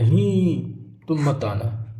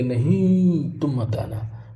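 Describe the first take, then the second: First: Said in the usual way. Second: "नहीं" stretched long, slow and drawn out; long drawn nahin. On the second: Shown as a demonstration. Teacher demonstrating the long vowel mark, stretching "नहीं" slowly. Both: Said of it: "थोड़ा सा लंबी ध्वनि बोलते".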